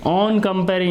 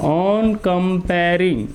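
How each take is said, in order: First: Said in the usual way. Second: "On comparing" drawn out very slowly; slow dictation. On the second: Shown as a demonstration. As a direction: stretch out "On comparing" for note-takers. Repeats phrase slowly for writing.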